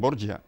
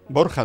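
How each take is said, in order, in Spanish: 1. La consonante del medio es una 'j' suave, como en 'judge'. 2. La consonante del medio es un sonido gutural áspero. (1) "Los italianos, como no pueden pronunciar la J, dicen Borgia" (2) "Borja decimos en español"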